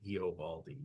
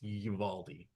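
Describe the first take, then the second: First: An 'o' vowel is sounded after the first vowel. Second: No 'o' vowel is sounded after the first vowel. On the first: The speaker calls it wrong. "it's easier to say Eovaldi" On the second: The speaker calls it right. "even though it's it's it's Uvaldi"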